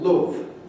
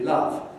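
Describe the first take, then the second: First: It is said with a northern English vowel. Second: It is said with a southern English vowel. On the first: "or love" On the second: "which in the south would be love"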